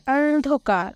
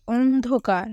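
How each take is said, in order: First: Said in the usual way. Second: "অন্ধকার" with a rounded opening o, ondhokar; careful model reading of "অন্ধকার" as ondhokar; standard pronunciation. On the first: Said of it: "এই ডান কলামে এই শব্দের উচ্চারণ কেমন হবে". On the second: Shown as a demonstration. Teacher showing pupils how "অন্ধকার" is pronounced, standard rounded o. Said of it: "এই শব্দের উচ্চারণ কেমন হবে".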